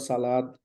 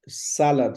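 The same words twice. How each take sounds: First: The stress is on the second syllable. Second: The stress is on the first syllable. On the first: The speaker calls it wrong. "this is not salad" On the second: The speaker calls it right. "Sa has the stress"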